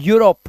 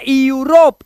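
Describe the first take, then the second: First: The word begins with a plain 'yoo' sound. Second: The word begins with an 'ee-yoo' sound. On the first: The speaker calls it right. "इसे पढ़ते हैं यूरोप" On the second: The speaker calls it wrong. "इसे यूरोप मत पढ़ना"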